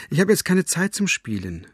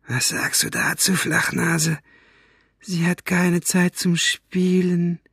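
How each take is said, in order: First: Higher-pitched call through a closed door. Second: High, slow, menacing villain voice; mocking villain. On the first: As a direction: call to a child behind the door, only slightly raised. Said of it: "rief sie durch die verschlossene Tür". (mit höherer Stimme durch die Tür gerufen) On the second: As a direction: throw her excuse back with slow mockery. Villain mocks her words. (spöttisch gedehnte, hohe Schurkenstimme) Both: A narrator's reading.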